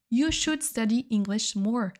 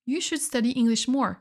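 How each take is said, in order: First: Slowly, each word laid out clearly; careful slow classroom model; slow repeat for learners. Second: Said in the usual way. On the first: Shown as a demonstration. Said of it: "teacher repeats example slowly". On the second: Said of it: "teacher repeats example".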